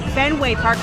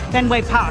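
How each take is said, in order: First: It is said in a general American accent. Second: It is said in a Boston accent. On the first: The speaker calls it wrong. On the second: The speaker calls it right.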